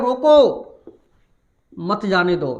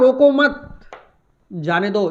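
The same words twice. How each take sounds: First: There is a pause after 'roko'. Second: There is a pause after 'mat'.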